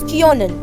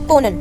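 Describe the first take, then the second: First: The first vowel is a rounded Ö sound. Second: The first vowel is a plain O sound. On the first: "with umlaut, so it becomes kionen. I mold the O little bit" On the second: "without the umlaut können, so it's konen"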